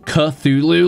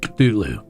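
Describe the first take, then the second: First: The first syllable has a full vowel sound. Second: The first sound is cut off before any vowel. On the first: This is how most people say it. "like people keep saying" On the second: It is meant to sound inhuman and unpronounceable. "there's a sound and you cut it off before you get any vowel sound"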